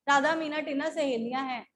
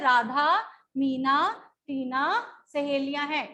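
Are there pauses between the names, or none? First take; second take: none; pauses. First: The names run together without any pauses. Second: Short pauses separate each of the names. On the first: "अगर ना हो comma" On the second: "इन शब्दों के बोलने में हमने थोड़ा सा गैप रखा है"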